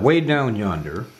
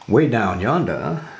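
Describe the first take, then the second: First: It is said in a neutral accent. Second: It is said in a New England accent.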